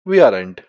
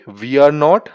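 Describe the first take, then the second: First: The last two words merge into one contracted word. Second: Every word is said separately in full. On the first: "advance में आता वी आर एंट" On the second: "simple ही बोल सकते हो"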